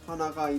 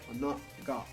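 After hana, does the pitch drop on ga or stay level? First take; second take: stays level; drops. First: The pitch stays level through ga. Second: The pitch drops on ga. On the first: It refers to a nose. "that's like your nose hurts" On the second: It refers to a flower. "Hana, and then ga drops in pitch"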